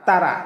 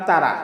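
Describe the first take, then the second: No difference in how they are said.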